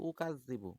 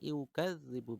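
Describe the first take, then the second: First: The word begins with a plain 'u' sound. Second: The word begins with a 'yu' sound. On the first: The speaker calls it wrong. "অনেকে বলে উকাযযিবু" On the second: The speaker calls it right. "আসলে উকাযযিবু না এটা হবে ইউকাযযিবু"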